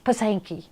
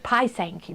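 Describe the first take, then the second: First: The first syllable does not sound like 'pie'. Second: The first syllable sounds like 'pie'. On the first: The speaker calls it wrong. "They said I was pronouncing it like a Pittsburgher" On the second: The speaker calls it right. "It's like pie, pie Sankey"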